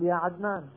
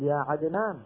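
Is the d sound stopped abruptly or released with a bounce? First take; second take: abrupt; bounce. First: The d sound is stopped abruptly without release. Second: The d sound is released with a slight bounce. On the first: The speaker calls it wrong. "ما نأتي بها بالتصادم" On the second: The speaker calls it right. "فعم يقلقل الدال عادي"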